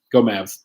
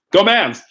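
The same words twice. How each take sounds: First: Said in the usual way. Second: Cheering, louder and higher. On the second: Shown as a demonstration. Pastor cheering on the Mavs to his viewers, loud cheer. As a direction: Go Mavs belted out like a fan cheer.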